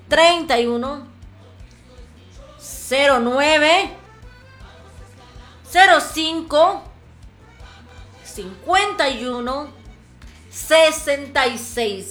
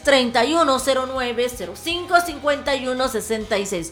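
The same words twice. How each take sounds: First: The number is said slowly. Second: The number is said fast.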